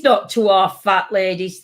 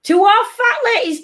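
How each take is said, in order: First: Said in the usual way. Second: High sing-song bingo call; bingo caller. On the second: Pretend.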